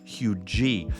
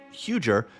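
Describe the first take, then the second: First: The name is said the way locals say it. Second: The name is said the way outsiders say it. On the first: This is how it is really said. The speaker calls it right. "it's actually" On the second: This is how newcomers say it. The speaker calls it wrong. "some people who aren't from around here ... pronounced it"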